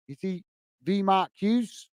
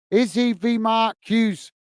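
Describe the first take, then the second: First: Softer, slow, questioning repeat with rising end; puzzled rereading. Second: Said in the usual way. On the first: Real, not acted. Streamer rereads viewer's joke he isn't following, puzzled. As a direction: read it quietly to yourself, trying to work it out.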